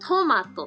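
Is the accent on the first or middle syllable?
first. Standard Japanese, accent on the first syllable.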